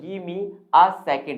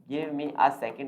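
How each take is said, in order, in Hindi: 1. 'give me' जुड़कर 'gimme' बन जाता है। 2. 'give me' को दो पूरे शब्दों की तरह बोला जाता है। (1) "इसको शॉर्ट कर दिया गया है" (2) "गिव मी अ सेकंड आप बोल सकते हैं"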